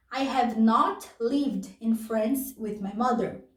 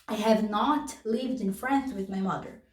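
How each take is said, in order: First: Slowed for learners; careful slow model. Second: Said in the usual way. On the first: Shown as a demonstration. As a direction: read it out word by word. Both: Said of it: "repeats example sentence".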